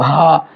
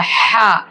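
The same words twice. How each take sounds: First: हा deep and heavy from the throat; a low, heavy हा. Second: हा light and thin, from mid throat; a soft, thin हा. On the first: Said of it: "छोटा हा का sound भारी होता है". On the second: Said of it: "बड़ा हा का साउंड बारीक होता है". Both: Shown as a demonstration.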